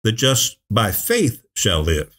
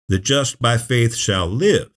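First: Slow, with "faith" lifted and set apart; stress on "faith". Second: Slow, saving the weight for "live"; "live" drawn out with raised pitch at the end; stress on "live". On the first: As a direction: pause around "by faith", leaning on "faith". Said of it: "the emphasis tilts on". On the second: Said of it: "life is the issue". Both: Shown as a demonstration.

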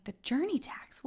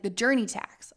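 First: "The journey tax?" echoed high and hushed, rising; confused repeat. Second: Said in the usual way. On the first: Retold or imitated. Repeating the host's words, baffled rising echo. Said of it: "What is this man saying?". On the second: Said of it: "I'm like, "The journey tax?".

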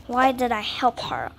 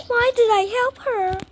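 First: Said in the usual way. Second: Higher exasperated repeat with stress on did. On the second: Real, not acted. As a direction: whine it again at yourself, stress on "did". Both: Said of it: "repeat with different tune".

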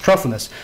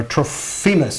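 First: Trophimus with stress up front, weak middle; probable pronunciation. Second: Trophimus with a long "fee" in the middle; alternative pronunciation. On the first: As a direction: say Trophimus as TRO-fuh-mus. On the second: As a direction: say Trophimus as tro-FEE-mus. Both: Shown as a demonstration. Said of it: "is probably how it's pronounced".

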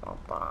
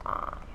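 Both takes have the same delivery.

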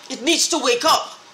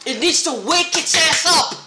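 First: Said in the usual way. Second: Raised, heated demand; angry outburst. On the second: Real, not acted. Ranting at the government to wake up, raised and heated. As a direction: push it out harder, fed up.

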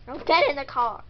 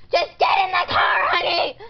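First: Said in the usual way. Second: Loud, fed-up mom yell; loud, impatient command; exasperated shout. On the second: Acted. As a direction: shout the order at a complaining child. Exasperated mother orders child in.

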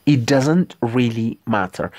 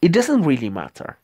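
First: Hushed whispered practice line. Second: Said in the usual way. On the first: Shown as a demonstration. Teacher repeats phrase in whisper.

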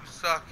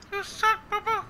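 First: Said in the usual way. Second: Much higher, put-on cartoon bear voice; Yogi Bear voice. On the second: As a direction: tease him like a cartoon bear. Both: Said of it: "Yogi Bear told you s".

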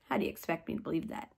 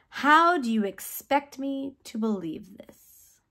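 First: Quick, quiet, lower throwaway question; doubtful question. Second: Slow incredulous question, each word drawn out; doubtful question. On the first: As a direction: toss it off fast and low in disbelief. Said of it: "And Zechariah said". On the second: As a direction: ask slowly, as if it cannot be true. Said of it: "Zechariah asked the angel". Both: Retold or imitated.

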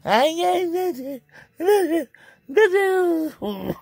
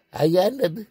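First: High, slow whining wail; mock-cry the words out; hammed-up high wail. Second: Said in the usual way.

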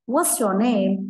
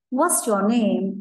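First: Said in the usual way. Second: Very slow, careful question; slow teacher demo; slow model question. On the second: Shown as a demonstration. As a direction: drag it out for the kids.

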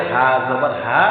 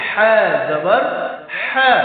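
First: হা as a light, ordinary "h"; hawwaz ha. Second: হা as a strong pharyngeal "h"; emphatic throat friction on each হা; hutti ha. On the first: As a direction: say হা জবর হা easily, no throat friction. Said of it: "তাহলে উচ্চারণ দেখেন". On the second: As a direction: push হা out from the throat, high and firm. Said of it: "আর এই হরফ কি হবে?". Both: Shown as a demonstration.

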